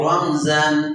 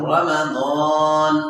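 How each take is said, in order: First: The middle consonant sounds like z. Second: The middle consonant sounds like d. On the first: The speaker calls it wrong. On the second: The speaker calls it right.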